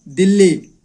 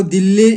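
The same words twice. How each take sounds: First: दिल्ली with a held double ll, dil-li, falling; teacher models the correct reading. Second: दिल्ली read as dili with a single short l and a rising tune; the wrong way to read दिल्ली; teacher models the mistaken reading. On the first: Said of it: "दिल्ली पढ़ना है". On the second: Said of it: "दिल्ली नहीं पढ़ना है". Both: Shown as a demonstration.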